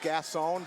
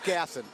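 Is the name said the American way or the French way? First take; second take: French; American. First: The name is said with a French pronunciation. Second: The name is said with an American pronunciation. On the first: This is how it would be said in France. "If you're in France, it's Gasson" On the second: This is how it is said in the United States. "we're here in the United States, Tom. It's Gasson"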